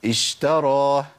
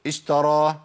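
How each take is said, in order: First: اشترى with a measured, fully sounded sh; correct shin. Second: اشترى with the sh cut too short; shortened shin. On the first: Teacher modelling the right reading, measured shin in اشترى. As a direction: give the sh in اشترى its due flowing length. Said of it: "أقول إيه؟". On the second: Teacher showing the opposite mistake, too-short shin in اشترى. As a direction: rush past the sh in اشترى. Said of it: "ولا أقول". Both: Shown as a demonstration.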